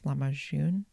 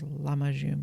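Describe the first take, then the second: First: The stress is on a later syllable. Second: The stress is on the first syllable. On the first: "but I think it's" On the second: "a lot of Turkish words have the emphasis on the first syllable of the word, so I thought it was"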